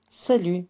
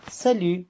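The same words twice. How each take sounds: The two takes are said the same way.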